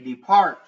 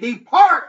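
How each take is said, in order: First: It is said at a normal, quieter volume. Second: It is said much louder, almost shouted.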